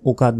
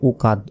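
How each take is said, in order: First: A vowel is inserted before the final consonant. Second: The same.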